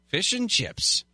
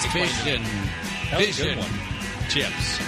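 First: The phrase is said at a normal pace. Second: The phrase is said slowly and deliberately.

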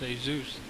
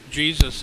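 First: The name is said with Spanish sounds. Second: The name is said with English sounds.

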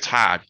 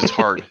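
First: The R in hard is dropped, Boston-style. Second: The R in hard is clearly pronounced.

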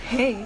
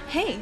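First: It is said in a lower pitch. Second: It is said in a very high pitch.

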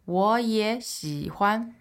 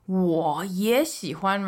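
First: The first two syllables rise, the third dips. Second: The first syllable carries a full dipping tone. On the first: "So up, up, dip" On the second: "you might want to pronounce the whole third tone, like"

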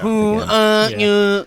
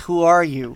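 First: It is said in a robotic voice. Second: It is said in a natural voice. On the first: The speaker calls it right. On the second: The speaker calls it wrong.

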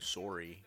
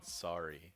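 First: It is said with a Canadian accent. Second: It is said with an American accent.

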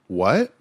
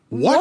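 First: It is asked as a plain question. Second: It is asked with astonished, exclaiming force.

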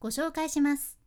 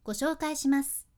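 No difference in how they are said.

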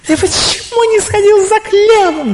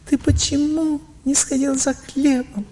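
First: It is said with strong, intense emotion. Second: It is said with much milder emotion.

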